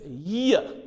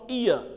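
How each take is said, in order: First: The word begins with a y sound. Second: The word begins directly with a vowel sound. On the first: The speaker calls it right. "This is year" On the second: The speaker calls it wrong. "It's not ear"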